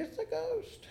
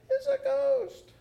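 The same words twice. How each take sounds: First: Mock frightened shout. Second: High, drawn-out frightened cry; terrified cry. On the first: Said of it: "Would you be shouting". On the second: Acted. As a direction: cry out as if you've seen a ghost. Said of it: "they were terrified and said".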